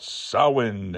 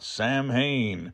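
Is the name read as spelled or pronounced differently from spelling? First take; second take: differently; as spelled. First: It is pronounced differently from its spelling. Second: It is read out exactly as spelled. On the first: The speaker calls it right. "pronouncing it properly" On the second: The speaker calls it wrong. "I was wrong"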